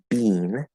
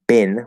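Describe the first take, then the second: First: The vowel is long, as in 'bean'. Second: The vowel is short, as in 'bin'. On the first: "some Canadian English and British English pronounce it bean with the first vowel sound" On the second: "in American English is most people pronounce that bin with the second vowel sound"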